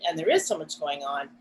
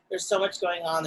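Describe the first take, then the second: First: "is" pitched up in agreement; emphatic "is", then dropping away; stress on IS. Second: Said in the usual way. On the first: Real, not acted. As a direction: lean on "is" to concede the point. Affirms the quote by stressing is.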